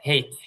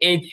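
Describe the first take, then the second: First: The letter name begins with an h sound. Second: The letter name begins with a vowel sound. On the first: "হেইচ মানে হ দিয়ে।" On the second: "আমরা এটাকে এইচ বলি, এটাও সঠিক।"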